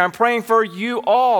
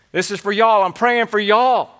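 First: "you all" set apart and stressed, higher pitch; emphasis on ALL. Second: Lightly put-on Southern accent, slightly raised. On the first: Shown as a demonstration. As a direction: land firmly on "you all" as two full words. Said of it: "The emphasis here would be". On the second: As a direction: play the apostle with a touch of Southern "y'all". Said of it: "if he had a good Southern accent".

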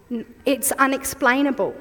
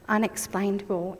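First: Said in the usual way. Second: Soft echo. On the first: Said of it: "repeated softer after". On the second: Shown as a demonstration. Preacher softly echoes her key word to the congregation, hushed. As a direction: let Unexplainable fall away quietly. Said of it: "repeated after first take".

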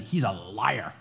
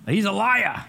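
First: "He's a liar" with "He's" pressed hard and firm; with emphasis. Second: Put-on a light Maine accent on "He's a liar", louder and higher; joking Maine accent, teasing the congregation. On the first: Retold or imitated. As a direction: lean hard on "He's", then drop on "liar". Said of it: "with emphasis". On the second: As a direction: play the apostle John with a bit of a Maine accent. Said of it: "he's got a little Maine accent going on".

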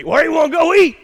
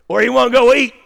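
First: Higher, louder southern question; playful Mississippi southern accent. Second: Mississippi drawl. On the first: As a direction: ask it like a Mississippi husband. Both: Retold or imitated. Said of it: "that's how we do it in Mississippi".

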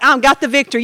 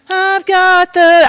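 First: Said in the usual way. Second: Slow, higher, held-out words; mock drawn-out declaration. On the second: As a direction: stretch each word on a raised note. Acts out victory claim faltering.

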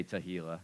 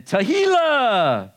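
First: Said in the usual way. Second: High, long, loud Spanish-accented flourish. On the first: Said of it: "Everybody say Tehillah". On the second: Shown as a demonstration. Preacher introducing a Hebrew praise word, loud drawn-out Spanish accent.

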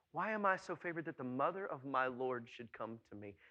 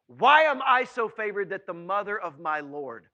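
First: Softer, lower, awed repeat; hushed wonder. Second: Loud, wondering cry; forceful exclamation. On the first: Preacher repeating Elizabeth's words for listeners to hear, hushed wonder. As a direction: bring it down to quiet amazement. Repeats verse softly after exclaiming it. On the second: Preacher acting Elizabeth's amazement at Mary's visit, loud exclamation. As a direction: burst out loudly, then let it fall. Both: Acted.

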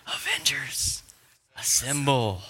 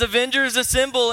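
First: Hushed, dramatic battle command; Captain America. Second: Loud, high, excited battle call; Thor. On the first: Preacher quoting the Endgame bone-chilling line, restrained and dramatic. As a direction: hold back the call, with a pause before the last word. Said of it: "Captain America says the bone-chilling line". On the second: Preacher retelling Thor's entrance, loud and fired up. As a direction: shout the rallying line at full excitement. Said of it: "where big fat Thor comes in". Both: Acted.

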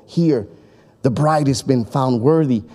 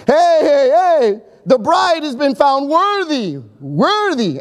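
First: Said in the usual way. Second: High, slow proclamation to the crowd; proud announcement. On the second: Retold or imitated. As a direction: announce it like a herald at the door. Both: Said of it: "the best man would give the announcement".

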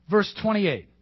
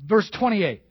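Both takes have the same delivery.

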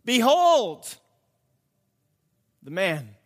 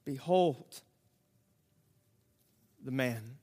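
First: Pilate's 'Behold' rung out, the man dropping off; proclaimed announcement. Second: Softer, hushed repeat; quiet echo. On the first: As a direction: announce it to the crowd. Pilate presents Jesus, proclaimed. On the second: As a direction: let it sink in softly. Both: Acted.

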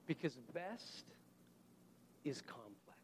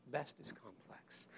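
First: Dropped to a hushed whisper. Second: Slow voiceless whisper. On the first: Preacher to congregation, soft whispered emphasis. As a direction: breathe it, almost voiceless. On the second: Preacher leaning in to congregation, slow whisper. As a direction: hush it, slowly, to the back row. Whispered repeat of key line. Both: Shown as a demonstration.

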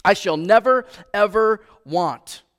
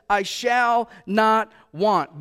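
First: Louder restatement leaning on "never"; emphatic never ever. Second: Slow, weighty quote with stress on "shall"; "I shall not want" said slowly and firmly; emphatic not want. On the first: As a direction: hit "never" hard, then stretch "ever want". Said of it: "an emphatic no, not ever". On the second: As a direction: lean on "shall", falling at the end. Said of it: "is an emphatic no". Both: Shown as a demonstration.

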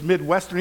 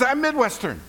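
First: Said in the usual way. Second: High delighted squeal; excited echo. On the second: Retold or imitated. Rescuer squealing in delight at a fellow Midwesterner. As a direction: gush it back joyfully.

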